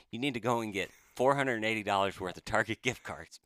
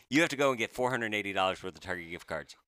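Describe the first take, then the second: First: Words breaking into real laughter; laughing while retelling. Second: Said in the usual way. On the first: Real, not acted. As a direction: laugh through the absurd gift card demand. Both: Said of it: "I can't believe I'm saying this".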